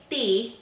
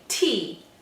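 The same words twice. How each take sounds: First: The t is soft, without a puff of air. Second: The t has an audible puff of air. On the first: The speaker calls it wrong. "we don't say T" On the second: The speaker calls it right. "we say T. Okay, that's called an aspirated sound"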